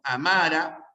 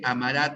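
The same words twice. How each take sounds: First: Amara with weight on the first syllable; teacher stressing the A of Amara for students. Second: Amará with the final RÁ stressed and rising; teacher stressing the end of amará for students; stress on last syllable. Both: Shown as a demonstration. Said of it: "entre la palabra amara y la palabra amará".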